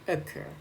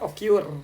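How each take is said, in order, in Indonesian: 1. Suku kata terakhir memiliki vokal 'er' yang panjang. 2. Suku kata terakhir memiliki vokal yang berbeda, bukan 'er'. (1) "pasti bacanya e panjang kayak gini"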